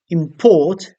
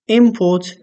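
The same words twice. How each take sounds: First: The stress is on the second syllable. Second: The stress is on the first syllable. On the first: It is a verb. "if the stress is on the second syllable, on port" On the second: It is a noun. "If the stress is on the first syllable, on im"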